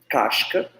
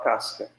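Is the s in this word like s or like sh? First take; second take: sh; s. First: The s is a hushing sh sound. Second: The s is a hissing s sound. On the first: This is how other communities say it. "a gente não fala casca" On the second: This is how the speaker's community says it. "a gente fala casca"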